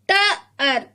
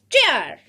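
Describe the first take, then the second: First: "Tar" split as "ta - ar"; sounded out. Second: "tear" joined in one falling syllable; blended. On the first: Teacher has children read sounds, "Tar" sounded out. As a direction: break "Tar" into two separate sounds. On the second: Teacher has children read sounds, "tear" blended. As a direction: say "tear" whole, pitch dropping. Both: Shown as a demonstration. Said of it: "read these sounds".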